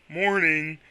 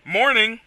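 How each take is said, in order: First: It is said in a put-on Quagsire voice. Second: It is said in his normal voice.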